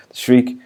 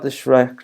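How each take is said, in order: First: "Shriek" with a long ee vowel; corrected pronunciation. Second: "Shrek" said with a short e in place of a long ee; slip of the tongue. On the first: Reviewer fixing a slip over the creature's name, "Shriek" with long ee. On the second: Reviewer misnaming the creature "Shrek" with a short e, accidental slip. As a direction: mispronounce the name as "Shrek", short vowel. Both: Real, not acted. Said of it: "I said Shrek there".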